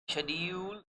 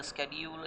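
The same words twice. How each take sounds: First: Schedule starting with "sh"; schedule with a soft sh, no k; British pronunciation. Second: Schedule starting with "sk"; schedule with a hard k; American pronunciation. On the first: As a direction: say schedule as SHED-yool. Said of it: "is a British pronunciation". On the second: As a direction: say schedule as SKED-yool. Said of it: "an American pronunciation". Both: Shown as a demonstration.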